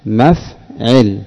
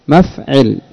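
First: مفعل drawn out slowly and softly; slow model answer. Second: Said in the usual way. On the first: Shown as a demonstration. (نطق مفعل ببطء وهدوء)

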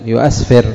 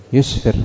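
First: يؤسفر as "yu-asfir", the unused full form; hamza kept in يؤسفر. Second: يسفر as "yusfir", two syllables; hamza dropped in يسفر. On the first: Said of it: "لم تقل". (يؤسفر بالهمزة المفتوحة بعد الياء) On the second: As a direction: run "yu" straight into s in يسفر. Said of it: "إنما قالت". (يسفر بحذف الهمزة وسكون السين) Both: Shown as a demonstration.

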